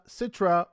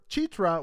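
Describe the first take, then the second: First: The name begins with an s sound. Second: The name begins with a ch sound. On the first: The speaker calls it wrong. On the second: The speaker calls it right.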